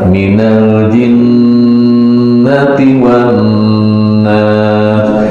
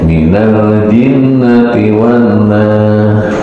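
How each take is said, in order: First: The phrase is recited at a measured pace. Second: The phrase is recited quickly and hurriedly.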